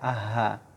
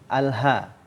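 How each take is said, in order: First: The l sound is left out. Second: The l sound is clearly pronounced. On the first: The speaker calls it wrong. "tidak dibaca aha" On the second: The speaker calls it right. "ini lamnya adalah qamariyah"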